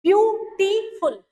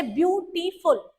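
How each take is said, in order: First: Slow syllable demo. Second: Said in the usual way. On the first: Shown as a demonstration. Teacher to class, counting syllables: beautiful said slowly. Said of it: "आप देख सकते हैं कि इसमें कितने syllable थे". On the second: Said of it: "जिनमें syllable आते हैं".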